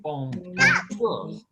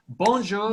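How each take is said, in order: First: "Bon-, bonjour" stretched slowly, syllable split; slow broken bonjour. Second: "Bonjour" bounced with a higher, rising lilt; rhythmic bonjour. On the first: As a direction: spell "bonjour" out slowly in two parts. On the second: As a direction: give "Bonjour" a little rhythm. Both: Shown as a demonstration. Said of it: "Say it with a little rhythm".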